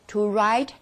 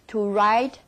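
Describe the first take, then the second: No difference in how they are said.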